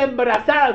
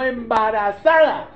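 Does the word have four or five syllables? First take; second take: four; five. First: The word is shortened, dropping a syllable. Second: The word is said in full, every syllable. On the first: This is how coastal speakers say it. The speaker calls it wrong. "no se dice embrazada" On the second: This is the standard way to say it. The speaker calls it right. "sino embarazada"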